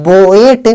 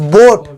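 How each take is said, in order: First: बोएट split as "bo-et", both vowels sounded; बोएट with separate "o" and "e" sounds; wrong two-vowel reading. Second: बोट as one syllable with a single "o" vowel; silent "a". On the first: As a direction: mispronounce boat as बोएट, voicing the silent "a". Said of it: "पर ऐसे हम नहीं पढ़ते". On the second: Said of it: "ए यहाँ पे silent हो गया". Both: Shown as a demonstration.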